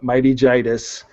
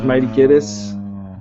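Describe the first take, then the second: First: The name starts with a soft J sound. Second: The name starts with a hard G sound. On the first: The speaker calls it right. "because it's like laryngitis" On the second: The speaker calls it wrong. "Everybody uh, says Mighty Giddis"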